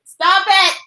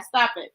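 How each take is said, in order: First: "Stop it." higher and louder, pushing back with a laugh; real playful protest. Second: Said in the usual way. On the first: Real, not acted. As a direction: tell the viewer to stop it, touched and teasing. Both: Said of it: "You gonna make me cry".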